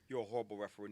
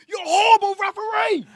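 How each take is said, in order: First: It is said in a calm, quiet way. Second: It is said in an angry, loud way.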